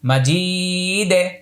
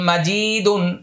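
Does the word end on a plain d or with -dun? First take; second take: plain d; -dun ending. First: The word stops on a plain final d. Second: The word ends with a full -dun syllable. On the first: "এটা ওয়াকফ করব এখানে দালে জজম দিব" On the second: "দাল দুই পেশ দুন মাজিদুন"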